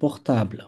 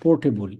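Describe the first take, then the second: First: It is pronounced with French vowels and sounds. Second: It is pronounced with English vowels and sounds. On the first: "ফরাসি উচ্চারণ হবে পোর্টাবল" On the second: "ইংলিশে যেরকম বলে"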